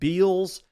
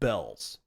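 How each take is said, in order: First: The vowel sounds like the one in 'bee'. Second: The vowel sounds like the one in 'bell'. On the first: The speaker calls it wrong. "I used to pronounce it Beals" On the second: The speaker calls it right. "apparently it's pronounced Bells"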